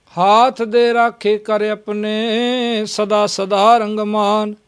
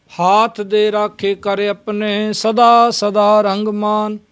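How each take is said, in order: No difference in how they are said.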